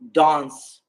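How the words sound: The word is said with a British accent. "in British English dance"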